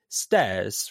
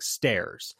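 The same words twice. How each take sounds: First: It is said without a hard R sound. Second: It is said with a hard R sound. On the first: "you know how an English person would say stairs" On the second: "in an American accent, it's like a hard R"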